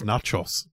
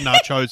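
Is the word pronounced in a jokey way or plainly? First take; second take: plainly; jokey. First: The word is said the plain, standard way. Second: The word is said with a jokey mispronunciation. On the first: The speaker calls it right. "I think it's nachos" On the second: The speaker calls it wrong. "I always say nachos as a joke"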